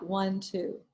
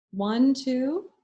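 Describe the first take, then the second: First: Counting the out-breath. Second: Counting slowly while inhaling, a rising count; counting the in-breath. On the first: Teacher counting students through a box-breathing out-breath, softer falling count. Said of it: "then you hold it ... then you breathe out". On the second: Teacher counting students through a box-breathing in-breath, rising count. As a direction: count one, two with a lift, as if drawing breath in. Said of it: "So you breathe in". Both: Shown as a demonstration.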